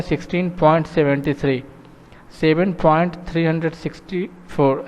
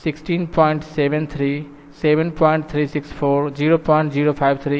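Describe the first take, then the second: First: "sixteen point seventy three" read with the digits after the point grouped as seventy-three; wrong way to read decimals. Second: "sixteen point seven three" with each digit after the point said separately; "seven point three six four" read digit by digit, not as three hundred sixty-four; correct digit-by-digit reading. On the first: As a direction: demo of the mistake, "seven point three hundred sixty four" with three hundred sixty-four after the point. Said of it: "ऐसे नहीं पढ़ना है". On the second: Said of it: "point के बाद एक एक digit करके पढ़ना है अलग अलग".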